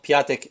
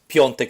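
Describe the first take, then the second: First: The vowel before the t is a plain 'a'. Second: The vowel before the t is a nasal 'on'. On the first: The speaker calls it wrong. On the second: The speaker calls it right.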